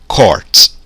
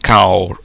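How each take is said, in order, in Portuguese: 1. A vogal é um som 'aw' aberto. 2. A vogal soa como 'ow' em house. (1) "Não, vai ser court" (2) "ah, a U então é court"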